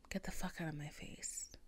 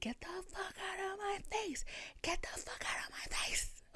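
First: Quiet, low, firm dismissal; said low and soft; low calm telling-off. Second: High strangled squeal, held down in volume; thin, high pretend shriek; mock scream. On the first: Retold or imitated. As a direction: tell him off under your breath. First telling, before the screaming. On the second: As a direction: imitate screaming without the full volume. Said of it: "I started screaming".

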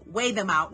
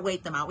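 First: "Weigh" with no t at the end; corrected "Weigh". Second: "wait" closed with a t at the end; mistaken "wait". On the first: Correcting their own slip to viewers, "Weigh" without a t. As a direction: say "Weigh" open, ending on the vowel. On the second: Quoting their own slip to viewers, "wait" ending in t. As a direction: say "wait" with its final t. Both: Shown as a demonstration. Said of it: "not wait them out".

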